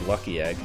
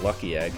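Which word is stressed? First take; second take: Lucky; Lucky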